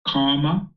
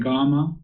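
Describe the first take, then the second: First: The word begins with a hard K sound. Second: The word begins with a soft G sound. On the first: The speaker calls it wrong. "not comma" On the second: The speaker calls it right. "pronounce it like a G"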